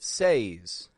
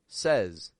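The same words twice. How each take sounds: First: The vowel is the long A of 'say'. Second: The vowel is the short E of 'set'. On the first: The speaker calls it wrong. "we don't pronounce it says" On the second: The speaker calls it right. "As if it's an S E Z"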